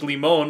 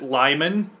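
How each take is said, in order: First: The name is said the Spanish way. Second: The name is said like English Lyman. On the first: The original word's pronunciation. "which is actually a Spanish word, which is limon" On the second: The local pronunciation. "but we pronounce it Lyman"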